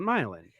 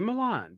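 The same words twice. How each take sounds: First: The name is said the local Ohio way. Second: The name is said the original, standard way. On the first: This is how people there say it. The speaker calls it wrong. "but we call it Milan" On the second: This is how the name is properly said. The speaker calls it right. "it should be Milan"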